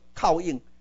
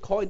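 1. 这是用日语外来词发音说的。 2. 这是用英语发音说的。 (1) "你免挑你个讲做靠硬" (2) "coin 是英语呢"

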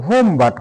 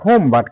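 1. প্রথম শব্দে 'oh' স্বরধ্বনি আছে। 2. প্রথম শব্দে 'oh' স্বরধ্বনি আছে।

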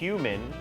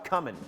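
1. พยางค์แรกไม่ฟังเหมือน 'come' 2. พยางค์แรกฟังเหมือน 'come' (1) "คำนี้ออกเสียงได้2 แบบนะครับ" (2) "หรือเหมือนกำลังมาครับ"

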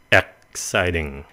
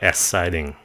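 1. 'ex' có âm tắc họng trước âm xì. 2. 'ex' không có âm tắc họng trước âm xì. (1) "Chữ này là exciting" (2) "chứ không phải là exciting"

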